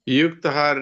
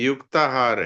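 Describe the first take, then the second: First: The vowel after yukt is short. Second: The vowel after yukt is long. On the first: The speaker calls it wrong. "युक्तहार नहीं" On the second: The speaker calls it right. "युक्ताहार है"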